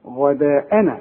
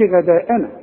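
First: غداءنا opening on a dark, backed "gha"; correct heavy Ghayn. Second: غداءنا opening on a thin, fronted "ghae"; wrongly thin Ghayn. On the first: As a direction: thicken the first vowel of غداءنا. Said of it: "ما دام مفتوحة غا". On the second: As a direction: lighten the first vowel of غداءنا. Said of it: "ما تقولش غداءنا". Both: Shown as a demonstration.

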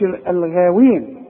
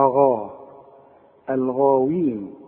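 First: الغاوين with a thin, fronted "ghae"; wrongly thin Ghayn. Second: الغاوين with a dark, backed "aa" after غ; slow, deep-vowelled غا in الغاوين; correct heavy Ghayn. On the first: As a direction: flatten the long vowel after غ in الغاوين. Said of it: "ما تقولش الغاوين". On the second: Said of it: "ما دام مفتوحة غا". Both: Shown as a demonstration.

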